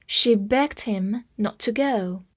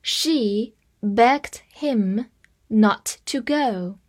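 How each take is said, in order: First: Said in the usual way. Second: Slow, phrase-by-phrase reading. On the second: Shown as a demonstration. Teacher reading slowly for students to repeat. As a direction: read it slowly in two chunks. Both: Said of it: "这句话慢慢跟读一遍".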